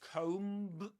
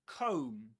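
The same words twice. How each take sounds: First: The final b sound is pronounced. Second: The final b sound is silent. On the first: The speaker calls it wrong. "you don't say comb" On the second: The speaker calls it right. "The B silent at the end. ... but comb"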